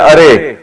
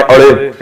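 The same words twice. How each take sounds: First: Said in the usual way. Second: Lyari-style اڑے with a hard retroflex flap; Lyari dialect. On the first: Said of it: "جیسے ہم کہتے ہیں ارے". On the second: Shown as a demonstration. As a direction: call out اڑے as they say it in Lyari. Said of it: "Lyari کی زبان میں اڑے".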